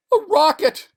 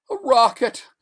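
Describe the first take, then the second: First: Very high, loud burst of disbelief; astonished cry. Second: High, loud tearful cry. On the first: Stranded man seeing the rocket, astonished shout. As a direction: shout it out as hope returns. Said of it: "he said, standing up". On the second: Stranded man rubbing his eyes, tearful cry. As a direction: cry it out through tears. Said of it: "he cried, rubbing his eyes". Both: Acted.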